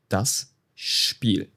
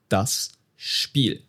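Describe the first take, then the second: First: Spiel begins with an sh sound. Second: The same.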